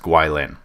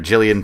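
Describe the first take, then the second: First: The name begins with a rounded 'gwi' sound. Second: The name begins with a plain 'gi' sound. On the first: The speaker calls it right. "it would be pronounced Gwyllin" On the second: The speaker calls it wrong. "I've been calling it uh, Gillian"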